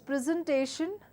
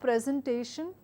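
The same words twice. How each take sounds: First: The stress falls on the second part. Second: The stress falls on the first part. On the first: The speaker calls it right. "It's presentation because it's a verb, and all the verbs in English language takes the word stress on the second part of the word" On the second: The speaker calls it wrong. "not presentation"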